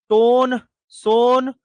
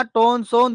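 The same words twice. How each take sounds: First: Drawn out. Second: Said in the usual way. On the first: Shown as a demonstration. Teacher drilling students on river names, slow drawn-out chant. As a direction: stretch टोन and सोन out slowly, each word long. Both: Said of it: "teacher drills river mnemonic".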